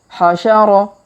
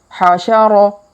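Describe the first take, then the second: Both takes have the same delivery.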